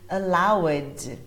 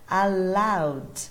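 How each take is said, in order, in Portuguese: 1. A palavra termina com uma sílaba extra, ed. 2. A palavra termina só com o som de d. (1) "ao invés de" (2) "e sim apenas o som do d"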